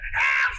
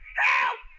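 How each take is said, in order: First: It is cried out in a smaller, toned-down way. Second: It is cried out in a big, exaggerated way.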